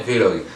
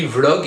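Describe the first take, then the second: First: Vlog said as "vé-log"; two-syllable Vlog. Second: Vlog with the v straight into the l; one-syllable Vlog. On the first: Viewers telling him what to avoid, Vlog said "vé-log". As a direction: add an é after the v in Vlog. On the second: Viewers telling him the correct form, Vlog in one syllable. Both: Shown as a demonstration. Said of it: "au lieu de dire".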